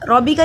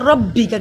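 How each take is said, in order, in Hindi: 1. 'b' की ध्वनि छोटी और एक है। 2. 'b' की ध्वनि खिंची हुई और दोहरी है। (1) "रॉबी का नहीं पढ़ा" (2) "क्योंकि बा पे शद है"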